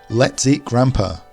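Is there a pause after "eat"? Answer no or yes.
no. The words run on with no pause after eat. The speaker wants to eat grandfather. "it sounds like we want to eat our grandfather"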